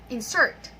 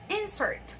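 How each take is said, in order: First: "Insert" loud on the second syllable, rising; light start on "Insert", hit the end; "Insert" as a verb, back-stressed. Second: "Insert" high on the first syllable, falling after; "Insert" as a noun, front-stressed. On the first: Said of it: "stressing the second syllable". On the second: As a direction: lean on the start of "Insert". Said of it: "we stress the first syllable". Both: Shown as a demonstration.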